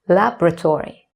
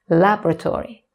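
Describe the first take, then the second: No difference in how they are said.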